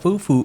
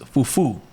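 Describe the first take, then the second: First: The stress is on the first syllable. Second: The stress is on the second syllable. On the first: The speaker calls it wrong. "It's not fufu" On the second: The speaker calls it right. "There's an accent in it"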